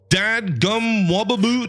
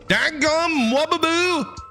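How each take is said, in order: First: It is said without a Southern accent. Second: It is said with a Southern accent. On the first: "No, that's bad. That's really bad" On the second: "I gotta get my southern accent on here"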